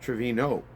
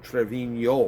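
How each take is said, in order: First: The name ends with a plain 'no' sound. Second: The name ends with a 'nyo' sound. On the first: "he never used the Enya, so it would be pronounced as" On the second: "It sounds like a Y at the end"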